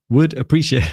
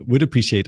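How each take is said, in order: First: Playfully shouting out capital letters; lively mock shout of a written message. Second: Said in the usual way. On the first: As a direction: read it out as a higher, mildly shouted message. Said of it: "I love his shouting".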